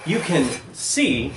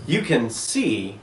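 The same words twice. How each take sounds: The two takes are said the same way.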